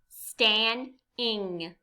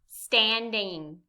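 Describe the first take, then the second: First: The word is said slowly. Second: The word is said fast.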